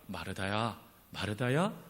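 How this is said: It is said in a comforting tone.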